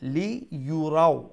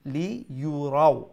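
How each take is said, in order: First: The middle syllable starts with a 'y' glide. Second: The middle syllable starts with a 'y' glide.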